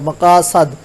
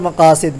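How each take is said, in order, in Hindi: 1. आख़िरी d से पहले का स्वर 'a' है। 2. आख़िरी d से पहले का स्वर 'i' है।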